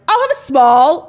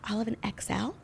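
First: It is said loudly and proudly. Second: It is said quietly, not screamed.

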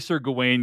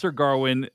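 First: The name has no R sound after its first vowel. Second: The name has an R sound after its first vowel. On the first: This is the speaker's own habitual pronunciation. "I'm going to say Sir Gawain" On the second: This is how someone else pronounces it. "he pronounces Sir Garwin"

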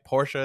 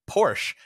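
First: Porsche is said the original, non-American way. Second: Porsche is said the common American way. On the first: The speaker calls it right. "Porsche is the correct way to say that" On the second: The speaker calls it wrong. "we say Porsche in America"

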